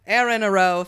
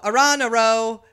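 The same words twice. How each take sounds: First: "Aaron" said as AIR-un; first-syllable AIR. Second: "Aaron" said as uh-RON; second-syllable stress. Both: Shown as a demonstration. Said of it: "it's either Aaron or Aron".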